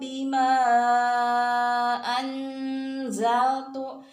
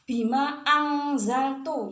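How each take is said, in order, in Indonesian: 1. Huruf n disamarkan ke posisi z. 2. Huruf n diucapkan seperti bunyi ng. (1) "nunnya masukkan ke za" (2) "masuk ke dalam huruf eng ya"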